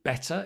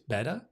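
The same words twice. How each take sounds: First: The middle consonant is a crisp T sound. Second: The middle consonant is a soft D-like flap. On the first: This is the British way of saying it. "instead of better" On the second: This is the American way of saying it. "So the T becomes a flip, a flap"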